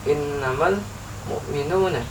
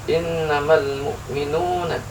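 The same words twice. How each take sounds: No difference in how they are said.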